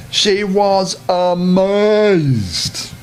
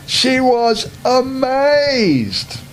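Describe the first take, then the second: First: Very slow, drawn-out amazed; slow, hushed storybook awe; slow wonder. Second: Very slow and higher, amazed drawn out; slow rising storybook wonder. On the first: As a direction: stretch it out in wonder for the children. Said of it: "narrator stretches the word". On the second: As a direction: stretch amazed up high with delight. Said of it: "repeated, higher and slower". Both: A narrator's reading.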